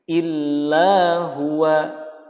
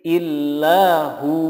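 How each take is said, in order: First: The phrase ends with the syllables hu-wa. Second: The phrase ends with a lengthened hu. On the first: The reading continues without stopping. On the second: The reader stops at this word.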